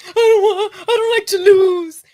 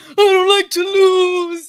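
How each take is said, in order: First: High, loud wailing mock sob; mock crying whine. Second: High, loud, slow sobbing whine; mock bawling. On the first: Mocking Shakur's crying in the video, loud high wail. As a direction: whine it like a kid bawling. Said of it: "video of Shakur Stevenson crying". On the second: Imitating Shakur bawling after the loss, slow loud wail. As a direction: stretch it out like a kid crying hard. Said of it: "he's fucking bawling his eyes out".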